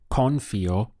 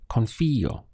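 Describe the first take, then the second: First: The stress is not on the i syllable. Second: The stress is on the i syllable. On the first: The speaker calls it wrong. "if you said confío, it wouldn't be understood" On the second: The speaker calls it right. "you're stressing the pronunciation over the I"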